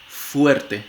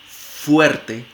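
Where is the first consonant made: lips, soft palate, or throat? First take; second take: lips; lips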